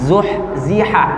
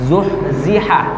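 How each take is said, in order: No difference in how they are said.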